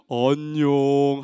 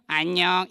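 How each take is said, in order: First: Very low, drawn-out hello; low, lazy-paced puppet hello; one friend's greeting. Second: Shorter, low, soft hello; a brief low character greeting; other friend's greeting. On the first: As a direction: greet slowly in a deep character voice. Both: Acted. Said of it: "한 친구는".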